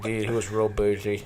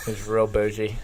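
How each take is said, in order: First: Mock lisping. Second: Lisp. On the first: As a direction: lisp through the words. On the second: Retold or imitated. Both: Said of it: "someone with a really bad lisp".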